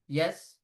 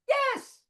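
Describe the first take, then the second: First: It is said at a medium, comfortable pitch. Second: It is said at a very high pitch.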